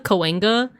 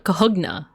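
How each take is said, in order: First: The n sound comes before the g sound. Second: The g sound comes before the n sound. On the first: This is how locals say it today. "I've heard locals say" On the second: "like it's the G first and then the the the N"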